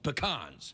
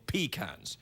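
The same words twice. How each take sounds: First: It is said the fancy, pretentious way. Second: It is said the plain Southern farmers' way. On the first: This is how pretentious people say it. The speaker calls it wrong. "It's only pretentious people who call them pecans" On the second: This is how the people who grow them say it. The speaker calls it right. "the people who farm these nuts call them pecans"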